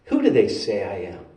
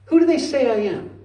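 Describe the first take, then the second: First: Low-pitched, grave question; low, measured question. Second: High-pitched repeated question, falling at the end; high, insistent question. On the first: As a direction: ask it low and evenly. Jesus asks, low first take. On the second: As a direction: press them with a raised pitch. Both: Acted.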